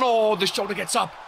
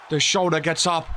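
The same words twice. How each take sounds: First: High, startled call of the kickout; excited. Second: Said in the usual way. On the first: Real, not acted. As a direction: gasp it out as he escapes.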